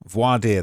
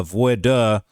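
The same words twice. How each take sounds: First: Voir dire as a settled "vwar-DEER"; correct pronunciation. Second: Voir dire tentatively as "voy-duh", drawn out; unsure pronunciation. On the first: Shown as a demonstration. Speaker showing how it's pronounced, voir dire as a firm "vwar-deer". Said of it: "That's how it's pronounced". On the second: Real, not acted. Reader unsure he's saying it right, voir dire as a hesitant "voy-duh". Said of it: "make sure I'm saying that right".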